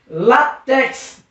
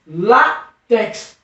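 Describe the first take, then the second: First: "Látex" said slowly with weight on LÁ; stress on LÁ. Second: "látex" broken in two after a strong LÁ; stressed syllable split off. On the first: Teacher presenting an example, "Látex" with a firm first syllable. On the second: Teacher showing the tonic syllable, "látex" as LÁ, pause, tex. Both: Shown as a demonstration. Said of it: "Percebeu que a sílaba tônica é no lá".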